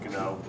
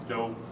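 First: The word starts with a hard G sound. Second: The word starts without any G sound. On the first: "I tend to pronounce a harder G just so it's understood" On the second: "The G can be silent"

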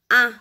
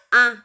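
Both takes have the same delivery.

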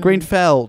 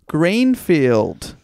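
First: The last syllable has a short 'e' vowel. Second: The last syllable has a long 'ee' vowel. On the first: The speaker calls it right. "So sorry" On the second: The speaker calls it wrong. "I've added in an I there"

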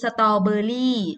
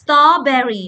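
First: It is said with a Thai-style pronunciation. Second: It is said with an English pronunciation. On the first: "แต่ถ้าแปลเป็นไทยคือ" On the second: "เวลาอ่านให้อ่านว่า"

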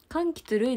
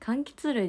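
First: The pitch pattern sounds like a personal name. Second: The pitch pattern is the ordinary common-noun one. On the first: The speaker calls it wrong. "柑橘類ではないですね。" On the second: The speaker calls it right. "柑橘類です、そこは。"

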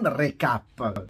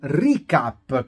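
First: The first vowel is an 'eh' sound. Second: The first vowel is an 'ee' sound. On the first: The speaker calls it wrong. "non recap" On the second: The speaker calls it right. "recap con la I"

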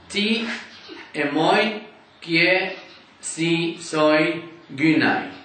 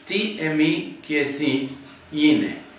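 First: It is read with the older Erasmian pronunciation. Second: It is read with modern Greek pronunciation. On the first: "This is the Erasmus translation" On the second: "Today we would read it"

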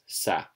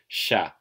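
First: The word begins with an s sound. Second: The word begins with an sh sound. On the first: This is how some local natives pronounce it. "sometimes Iloilo natives will pronounce it as sa" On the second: This is the usual pronunciation, as in Tagalog. "So Tagalog is always sha"

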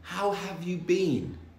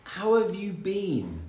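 The two takes are said the same way.

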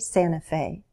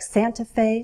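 First: The T sound is dropped. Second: The T sound is clearly pronounced.

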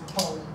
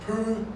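First: The word ends with an audible L sound. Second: The word ends on a vowel without L. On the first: This is how it is said in eastern Scotland. "in parts of eastern Scotland, you could say pole" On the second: This is how it is said in southwest Scotland. "In the southwest, it would be pronounced poo, riding the final L"

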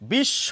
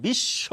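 No difference in how they are said.

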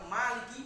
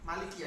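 First: The first vowel is long. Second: The first vowel is short. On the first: It means owning. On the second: It means ruling or having power over.

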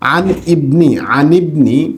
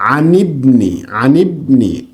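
First: The two words are said separately, glottal stop kept. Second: The two words are linked with an i sound. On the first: The speaker calls it wrong. "আমরা পড়েছি আন ইবনি" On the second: The speaker calls it right. "যেহেতু এই হামজাটা ওয়াসলি এই জন্য আমরা হামজাকে উচ্চারণ করব না, এইভাবে পড়ব"

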